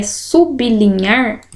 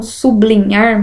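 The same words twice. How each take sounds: First: Sublinhar said slowly as sub-li-nhar, b apart from l; corrected pronunciation. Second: Sublinhar said su-bli-nhar, with bl run together; common mispronunciation. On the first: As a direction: separate sub from linhar, like subi-linhar. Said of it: "porque é sublinhar". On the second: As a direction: blend b into l in sublinhar. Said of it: "está errada a pronúncia". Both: Shown as a demonstration.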